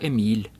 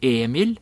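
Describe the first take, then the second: First: The stress is on the second syllable. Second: The stress is on the first syllable.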